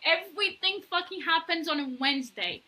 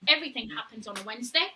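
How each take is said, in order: First: "Everything" stressed, every word given weight; emphatic repeat. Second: Quick, matter-of-fact "Everything happens on a Wednesday"; quick aside. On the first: Host telling Directioners about Wednesdays, emphatic repeat. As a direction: lean hard on "Everything", then drive through to "Wednesday". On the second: Host explaining the day to listeners, quick aside. First take, before the emphatic repeat. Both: Real, not acted.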